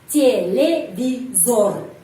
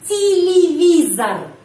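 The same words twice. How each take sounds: First: The final vowel is a full 'o' sound. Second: The final vowel is reduced to an 'a' sound. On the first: The speaker calls it wrong. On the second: The speaker calls it right. "bacanya televizar"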